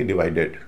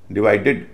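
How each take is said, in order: First: "डिवाइडेड" ending in a full "एड"; wrong ed ending. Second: First "डिवाइडेड" ending in a short, light "इड". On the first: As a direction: say "डिवाइडेड" with a clear e in the last syllable. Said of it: "न कि डिवाइडेड". ("डिवाइडेड" के अंत में पूरा एड) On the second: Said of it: "उच्चारण इड होता है". ("डिवाइडेड" के अंत में छोटा इड) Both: Shown as a demonstration.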